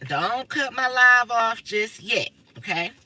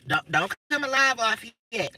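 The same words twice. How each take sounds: First: Each word stretched out, very slow; slow pleading. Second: Said in the usual way. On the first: Real, not acted. Streamer begging viewers not to cut her live, slow and drawn out. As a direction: drag it out as a pleading request.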